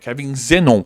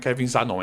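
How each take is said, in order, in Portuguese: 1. A primeira vogal do sobrenome soa como 'e'. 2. A primeira vogal do sobrenome soa como 'a'. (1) "é Kevin Zenon" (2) "Não é Kevin Zanon"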